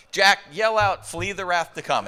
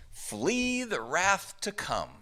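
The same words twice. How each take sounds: First: Loud, raised-pitch call to Jack. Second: Put-on slow, higher-pitched southern accent. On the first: Real, not acted. Preacher calls on Jack to yell the catchphrase, calling out loudly. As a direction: project it hard, like prompting someone to yell. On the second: Preacher quoting Wesley's catchphrase to the congregation, southern accent. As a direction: stretch it out with a hint of Southern accent. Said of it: "said that in a southern accent".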